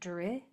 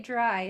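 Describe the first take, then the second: First: The vowel is a short 'ih' sound. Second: The vowel is a long 'eye' sound. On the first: The speaker calls it right. "This I's Y is saying I because of those two consonants after it" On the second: The speaker calls it wrong. "It's tempting to say dry"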